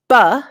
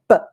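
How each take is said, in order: First: The consonant is followed by an added uh vowel. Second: The consonant is cut short with no added vowel. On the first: The speaker calls it wrong. "which is kind of what we all say" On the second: The speaker calls it right. "you want to just say buh, like that"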